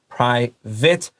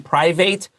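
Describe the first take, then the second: First: The last syllable sounds like 'it'. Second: The last syllable sounds like 'eight'. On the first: The speaker calls it right. "I T" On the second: The speaker calls it wrong. "A T E here thought it, not eight. Don't say private"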